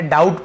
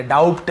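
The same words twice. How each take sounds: First: "डाउट" said with no b before the t; silent b. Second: "डाउट" said as doubt with an audible b/p before t; b wrongly sounded. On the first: Teacher showing learners the silent b in "डाउट", b dropped. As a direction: say "डाउट" as dout, b left silent. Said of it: "बी silent है, डाउट पढ़ेंगे". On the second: Teacher showing the reading to avoid, "डाउट" with b sounded. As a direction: put a lip stop before the t in "डाउट". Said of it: "डाउट नहीं पढ़ेंगे". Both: Shown as a demonstration.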